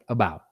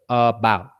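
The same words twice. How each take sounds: First: The first vowel is a weak, short schwa. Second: The first vowel is a full, clear vowel. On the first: The speaker calls it right. "it's important to say it like that, like about" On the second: The speaker calls it wrong. "instead of about"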